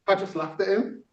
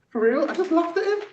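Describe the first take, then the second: First: Said in the usual way. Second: For real, I just laughed at him, pitched much higher and louder; emphatic repeat. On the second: Shown as a demonstration. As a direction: hit the repeat hard and high.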